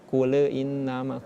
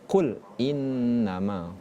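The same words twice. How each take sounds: First: An extra e sound follows qul. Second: No extra sound follows qul. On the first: The speaker calls it wrong. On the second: The speaker calls it right.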